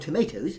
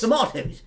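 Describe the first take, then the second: First: The word is pronounced the American way. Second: The word is pronounced the British way. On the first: "that you might say if you're in America" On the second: "but we say tomatoes"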